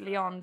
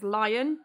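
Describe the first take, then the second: First: The name sounds like the name Leon. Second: The name sounds like the word lion. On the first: The speaker calls it right. "he told me that you pronounce it Leon" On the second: The speaker calls it wrong. "I was convinced that you pronounced it as Lion"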